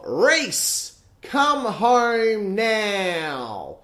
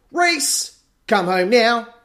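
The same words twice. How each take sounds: First: High, slow mock call of the mum; quoting mum's call. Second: High, loud little chant of the call; sung taunt. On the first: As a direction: drag out the call like she did. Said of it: "take that quote of". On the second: Retold or imitated. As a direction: sing it to tease your friend. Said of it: "turn it into a little song".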